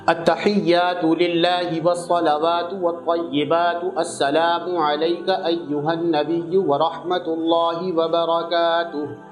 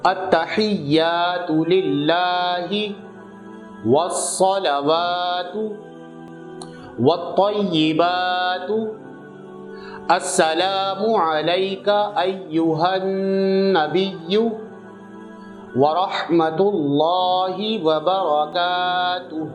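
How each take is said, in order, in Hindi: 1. यह सामान्य, थोड़ी तेज़ रफ़्तार से पढ़ा जाता है। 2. यह धीरे-धीरे, शब्द-दर-शब्द पढ़ा जाता है। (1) "अब जो आप लोग जो है वो रेगुलर पढ़ेंगे" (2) "वर्ड टू वर्ड समझ में आ गया होगा इतनी आराम से पढ़ने में"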